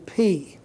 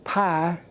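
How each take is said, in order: First: The vowel sounds like 'ee'. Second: The vowel sounds like 'eye'. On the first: The speaker calls it right. "but it's really P" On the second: The speaker calls it wrong. "the word you learned in algebra as pi"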